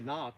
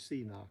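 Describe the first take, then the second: First: The initial C sound is silent. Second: The initial C sound is pronounced. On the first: This is the maker's official pronunciation. "They say knock" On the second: This is the speaker's personal pronunciation. "but to me it's always C knock"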